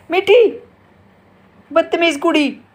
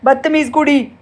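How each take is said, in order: First: High, loud squawky parrot voice; parrot imitation. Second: Said in the usual way. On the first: Mother showing how her parrot will squawk it back. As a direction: mimic the parrot repeating it. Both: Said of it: "अब देखना ज़ोर से बोलेगी".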